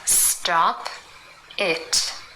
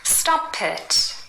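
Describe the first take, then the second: First: The two words are said separately. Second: The p runs into it, like Pitt.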